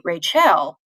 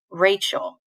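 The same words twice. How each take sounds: First: "Rachel" stressed on the last syllable, ray-CHELL; wrong-syllable stress. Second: Said in the usual way. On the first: Shown as a demonstration. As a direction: punch the end of "Rachel" as a full "chell". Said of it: "you don't say Rachel". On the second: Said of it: "you say Rachel".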